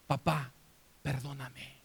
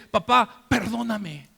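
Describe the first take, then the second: First: Low, soft plea for forgiveness; subdued, sinking almost to nothing; hushed plea. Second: Loud, raised plea for forgiveness; forceful, pleading outburst; impassioned plea. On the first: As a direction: ask quietly, with a pause after the first word. Imagined plea to his dead father. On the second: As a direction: cry out to your father. Same plea, now cried out to father. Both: Acted.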